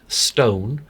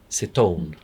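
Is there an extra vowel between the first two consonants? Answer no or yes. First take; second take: no; yes. First: The two opening consonants come together without a vowel. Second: A short vowel separates the two opening consonants. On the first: "will not say stone" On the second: "pop in a little vowel to separate the two consonants"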